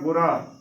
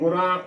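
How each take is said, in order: First: The final vowel is not nasalized. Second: The final vowel is nasalized. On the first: The speaker calls it right. "ਇਸ ਦਾ ਸਹੀ ਉਚਾਰਨ ਹੋਏਗਾ ਗੁਰਾਂ" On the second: The speaker calls it wrong. "ਗੁਰਾਂ ਉਚਾਰਨ ਨਹੀਂ ਕਰਨਾ"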